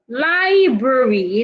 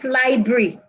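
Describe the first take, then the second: First: The word is said with all three syllables. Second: The word is said with fewer than three syllables. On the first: The speaker calls it right. "it has three syllables" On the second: The speaker calls it wrong.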